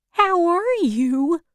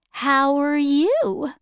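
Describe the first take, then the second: First: "are" lifted high, unhurried question; slow, higher greeting leaning on "are"; stress on "are". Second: "you" drawn out and lifted high; slow return question, leaning on "you"; stress on "you". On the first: Scarecrow greeting Dorothy, stress on "are". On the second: Dorothy asking the scarecrow back, stress on "you". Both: Acted.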